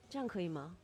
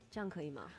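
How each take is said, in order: Both takes have the same delivery.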